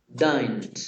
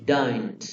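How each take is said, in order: No difference in how they are said.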